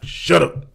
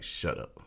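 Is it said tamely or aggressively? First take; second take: aggressively; tamely. First: It is said in an aggressive, forceful way. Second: It is said in a tame, mild way.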